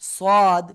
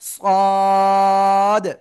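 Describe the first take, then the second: First: The vowel is cut short. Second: The vowel is drawn out very long. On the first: The speaker calls it wrong. "অনেকে বলে এরকম সাদ, সাদ, এরকম বলা যাবে না।" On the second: The speaker calls it right. "চার আলিফটা নিয়ে"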